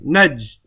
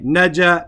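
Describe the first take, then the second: First: The word stops on the final consonant j. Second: The word ends with an added a vowel. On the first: The letter carries a sukoon, with no vowel. The speaker calls it right. "I just stop on the jim for a second" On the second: The letter carries a fatha. The speaker calls it wrong. "I don't say naja"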